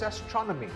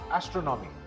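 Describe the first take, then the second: First: The stress is on the second syllable. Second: The stress is not on the second syllable. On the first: The speaker calls it right. "The second syllable is stressed" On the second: The speaker calls it wrong. "This word is not astronomy"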